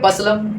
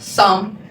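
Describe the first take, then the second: First: Both the P and the L are sounded. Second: Both the P and the L are silent. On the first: The speaker calls it wrong. "कुछ लोग कहेंगे पसलम" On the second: The speaker calls it right. "Right pronunciation will be what सम"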